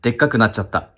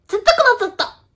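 First: Shy, half-hearted gag delivery; a hint of a comedian's gag line, held back; Magic Mr. Maric gag. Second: High, all-out comedian shout; full-force gag with total commitment; shameless gag line. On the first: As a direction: do the gag a bit embarrassed. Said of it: "恥じらいなく、でっかくなっちゃったってやんないと". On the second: Shown as a demonstration. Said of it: "勢いでやんないといけないことなの".

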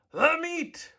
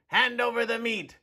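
First: Much higher shouted echo; crew roar. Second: Higher, demanding bark; greedy pirate. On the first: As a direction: roar it back like hungry pirates. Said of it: "we all roared". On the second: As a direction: grab for the meat, mouth full. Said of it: "gulped his food and said". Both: A narrator's reading.

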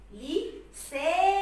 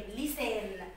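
First: لسان very slow and higher, aa and final n held; stretched long vowel. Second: Said in the usual way. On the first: Shown as a demonstration. Teacher sounding out the word for pupils, stretching لسان. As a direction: sing out لسان, split after لي and sustain the ending. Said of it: "لما نمد كده في الصوت".

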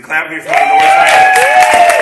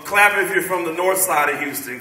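First: High, slow, drawn-out yell to the crowd; hype man shout. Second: Said in the usual way. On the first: Acted. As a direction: stretch it out like an MC firing up the room. Repeats call-out, hyping crowd.

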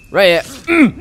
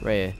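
First: Louder and higher, pouncing on the target; excited callout landing the kill. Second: Said in the usual way. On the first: Real, not acted. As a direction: call it out as you strike. Aiming at the last enemy.

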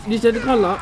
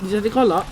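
No difference in how they are said.

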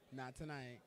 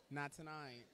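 The two takes are said the same way.

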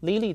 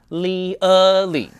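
First: Lily as even "lee-lee"; Lily without any schwa; wrong pronunciation. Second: Lily loud and stretched, lee-UH-lee; Lily slowly broken open to show the "uh"; exaggerated correct pronunciation. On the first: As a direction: say Lily with two pure "ee" vowels. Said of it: "这个字不念Lily啊". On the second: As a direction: draw out the schwa inside Lily, high and loud. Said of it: "我们都把那个呃弄不见了". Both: Shown as a demonstration.

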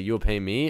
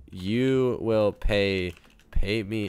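First: "You will pay me" low, rising on "me"; questioning read-back. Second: Very slow, low, halting words; dictating while typing. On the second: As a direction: say it word by word as you type. Types the message word by word. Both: Real, not acted.

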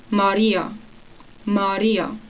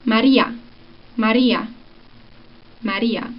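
First: "Maria" with relaxed closed vowels, ending nearer o; Swiss German pronunciation. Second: "Maria" with open clear Spanish vowels, ending in a; Spanish pronunciation. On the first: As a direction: say "Maria" the Zürich way, muscles loose. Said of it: "And then in Swiss German". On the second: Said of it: "Okay, Spanish first". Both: Shown as a demonstration.

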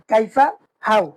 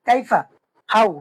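No difference in how they are said.

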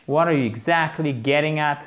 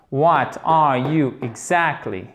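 First: Said in the usual way. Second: Slow, deliberate "What are you exactly", stressing the second syllable of "exactly"; teacher's drawn-out demo, leaning on the "ac" in "exactly". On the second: Shown as a demonstration. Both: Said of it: "L'accent tonique est ici".

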